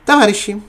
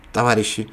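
First: Put-on heavy Russian accent, louder; hard Russian-accented address. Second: Said in the usual way. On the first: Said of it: "говорила она, обращаясь к своим злым русским". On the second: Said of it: "их называла товарищами".

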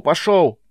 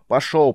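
First: Second "Пошёл" higher and falling hard; louder shouted command. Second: Shouted command. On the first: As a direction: repeat "Пошёл" higher with a sharp drop. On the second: First of repeated command. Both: Acted.

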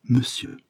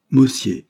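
First: « monsieur » prononcé « me-sieu », à la française; prononciation française corrigée. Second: « Monsieur » prononcé « mossié », haut et fort; répète « Monsieur » maladroitement, en « mo-sié »; mauvais accent étranger. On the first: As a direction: montre « monsieur » avec un e sourd en première syllabe. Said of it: "on dit monsieur". (« monsieur » bien articulé, première syllabe en « me ») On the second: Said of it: "avec un très mauvais accent". (« Monsieur » à l'étrangère, avec o et é) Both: A narrator's reading.

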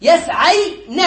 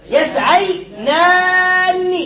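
First: "يسعين" very slowly as yasay, then na; syllable by syllable. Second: "يسعينان" high and very slow, long naa then nni; long a, doubled n. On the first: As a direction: split off the final na of "يسعين". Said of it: "فنقول". (نطق "يسعين" ببطء مقطعًا: يسعيـ نَ) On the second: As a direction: sustain the ending of "يسعينان" on a raised pitch. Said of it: "نكسرها تشبيها لها بنون المثنى". (نطق "يسعينان" بمد طويل ونون مشددة مكسورة) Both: Shown as a demonstration.

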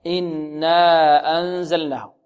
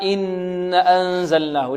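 First: إنا أنزلناه with held nasal nn, then a long aa; correct two-count madd. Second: إن أنزلناه with a held nasal nn but a short a after it; wrong reading, no madd. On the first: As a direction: hum the nun and stretch the alif in إنا أنزلناه. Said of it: "مد الألف بمقدار حركتين هكذا". (إنا أنزلناه بغنة ومد الألف حركتين) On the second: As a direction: hum the nun of إن أنزلناه, then skip the long alif. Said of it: "لعل البعض يقرأها". (إن أنزلناه بغنة دون مد الألف) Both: Shown as a demonstration.

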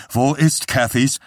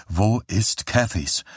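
First: Higher, abrupt demanding question; brusque. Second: Slow, subdued but persistent; repeated question. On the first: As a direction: demand the answer curtly. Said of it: "fragte Johnny schroff". (schroff gefragt, mit erhobener Stimme) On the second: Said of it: "fragte Johnny noch einmal". (langsam und gedämpft nachgefragt) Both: A narrator's reading.

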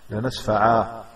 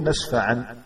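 First: "لنسفعا" ending in an open long a; stop on alif. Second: "نسفعا" ending in a clear n; final nun sound. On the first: Teacher showing the Quranic stop, final alif. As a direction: end "لنسفعا" on aa, no n. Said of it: "لا تنطق بالنون". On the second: Teacher dictating to a student writer, final nun sound. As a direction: stop "نسفعا" on -an, nun heard. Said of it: "بالنون". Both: Shown as a demonstration.

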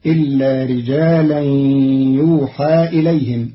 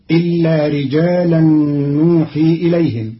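First: يوحى with a y as yuuhaa, passive; Qalun reading yuuhaa. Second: نوحي with a first n as nuuhii; Hafs reading nuhi. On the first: Teacher shows Qalun's passive form, pron. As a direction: start يوحى with a y, end in aa. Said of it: "بياء بدل النون مضمومة مع فتح الياء". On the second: Teacher recites the Hafs form first, pron. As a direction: begin نوحي with an n. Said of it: "قرأ قالون كلمة نوحي". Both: Shown as a demonstration.

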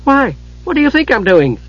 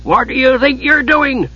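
First: Higher-pitched, curious comeback; lightly voiced Kender, asking innocently. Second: High-pitched, indignant dwarf demand; Flint demanding. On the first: Kender turns the dwarf's question back, innocently curious. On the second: Dwarf confronts the idle Kender, demanding. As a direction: challenge him crossly, pitched well up. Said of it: "Flint demanded". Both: A narrator's reading.

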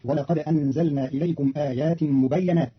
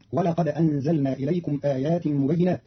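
First: مبينات with fatha on the ي, mubayyanat; Qalun reading. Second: Said in the usual way. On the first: Shown as a demonstration. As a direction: read مبينات as mubayyanat, slowly. (مبينات بفتح الياء) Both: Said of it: "بفتح الياء".

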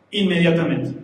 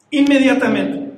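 First: Said in the usual way. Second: Inmediatamente, louder and firm; emphatic repeat. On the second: Acted. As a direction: hammer Inmediatamente home. Recalca la palabra. (Inmediatamente dicho fuerte y firme)

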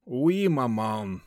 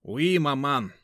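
First: Slow sighing reply. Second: Said in the usual way. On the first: Acted. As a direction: sigh it out, resigned. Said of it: "со вздохом ответил веник".

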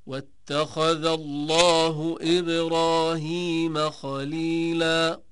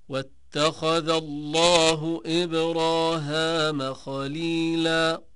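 First: Slow recitation, إبراهيم with a long ee; Ibrahim with ī. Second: Slow recitation, إبراهام with a long aa; Ibraham with ā. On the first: Teacher reciting a verse example, إبراهيم chanted with long ee. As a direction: draw out the "heem" in إبراهيم. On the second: Teacher reciting Ibn Dhakwan's variant, إبراهام chanted with long aa. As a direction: draw out the "haam" in إبراهام. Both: Shown as a demonstration. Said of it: "قرأ ابن ذكوان".

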